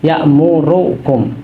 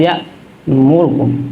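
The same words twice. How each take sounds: First: The vowel after the r is fully pronounced. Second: The vowel after the r is shortened and quick. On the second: "dua per tiga harokat"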